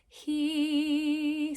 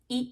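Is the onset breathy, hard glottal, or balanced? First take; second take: balanced; hard glottal. First: A little air, then immediately a strong tone. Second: The vowel starts abruptly with no air before it. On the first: The speaker calls it right. "the balanced onset is he" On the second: The speaker calls it wrong. "Then practice the glottal, which would be e"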